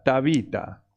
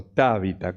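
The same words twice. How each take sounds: First: Tabita said once as the first of two readings; Tabita, first version; first way of saying Tabita. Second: Tabita said again with a different stress, lower; Tabita, second version; alternative way of saying Tabita. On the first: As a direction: give Tabita its first pronunciation, plain. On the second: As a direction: offer Tabita as the other pronunciation. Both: Shown as a demonstration. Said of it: "No tiene acento".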